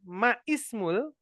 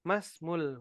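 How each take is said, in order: First: The i after ma is pronounced separately. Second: The i is dropped, joining ma to smul. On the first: The speaker calls it wrong. "bukan ma ismul" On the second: The speaker calls it right. "langsung saja"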